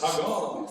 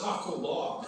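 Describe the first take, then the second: First: It does not sound like 'taco log'. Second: It sounds like the words 'taco log'. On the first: The speaker calls it right. "It's Tagalog" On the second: The speaker calls it wrong. "She calls it Taco Log"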